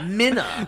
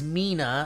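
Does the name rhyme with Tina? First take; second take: no; yes. First: The name does not rhyme with Tina. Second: The name rhymes with Tina. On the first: The speaker calls it wrong. "Did you think I was going to say Minna?" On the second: The speaker calls it right. "It's pronounced like Tina, but with an M"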